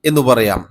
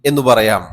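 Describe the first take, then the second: The two takes are said the same way.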